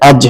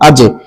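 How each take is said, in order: First: The final consonant stops flat with no bounce. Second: The final consonant ends with an echoing bounce. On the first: The speaker calls it wrong. "এটা আজ হবে না" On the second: The speaker calls it right. "কলকলা হরফ"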